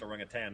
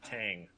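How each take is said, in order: First: The word ends with a plain n sound. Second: The word ends with an ng sound. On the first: The speaker calls it right. "It's pronounced orangutan" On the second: The speaker calls it wrong. "not tang"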